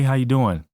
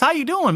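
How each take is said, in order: First: It is said with ordinary, moderate energy. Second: It is said with exaggerated, over-the-top energy. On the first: It is the person's usual way of greeting. "if you're normally like" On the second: It comes across as too much and off-putting. "That's like, dude, get away from me"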